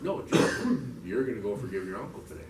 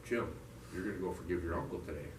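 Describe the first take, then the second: First: Firm correction, punched at the start; mildly insistent voice in his head; insistent inner voice. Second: Low, soft, matter-of-fact command; calm inner voice, pitched down; voice in his head. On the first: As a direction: overrule him, then settle into the order. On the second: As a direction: quietly hand down an order. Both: Retold or imitated. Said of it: "And I hear this voice".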